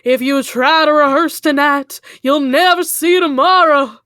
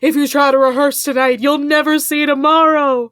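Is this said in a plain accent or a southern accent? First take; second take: southern; plain. First: It is said in a put-on southern American accent. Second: It is said in the speaker's ordinary accent.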